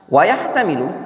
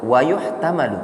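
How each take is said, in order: First: The verb is read as yahtamilu. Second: The verb is read as yuhtamalu. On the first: The verb is read in the active voice. The speaker calls it right. "cukup dibaca wa yahtamilu" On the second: The verb is read in the passive voice. The speaker calls it wrong. "yang tepat enggak usah dibaca yuhtamalu"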